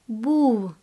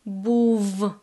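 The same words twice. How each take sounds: First: The final sound is close to w. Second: The final sound is a clear v. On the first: The speaker calls it right. "This sound is very close to English w sound" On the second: The speaker calls it wrong. "it won't be clear був"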